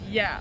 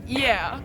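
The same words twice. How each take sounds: First: It is said with a neutral accent. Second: It is said with a New York accent. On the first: "not like" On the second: "I have a tendency to be like"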